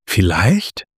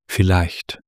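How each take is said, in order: First: VIELLEICHT with a steep questioning rise at the end; questioning echo. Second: Said in the usual way. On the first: A narrator's reading. Luna questions the other Luna's answer, Vielleicht rising doubtfully. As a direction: throw Vielleicht back as a question, rising sharply.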